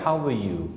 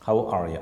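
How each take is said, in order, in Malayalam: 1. 'Are' ഏതാണ്ട് ഒഴിവാക്കപ്പെടുന്നു, ഒറ്റ ഒഴുക്കിൽ ലയിക്കുന്നു. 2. 'are' ഉൾപ്പെടെ എല്ലാ വാക്കുകളും പൂർണ്ണമായി ഉച്ചരിക്കുന്നു.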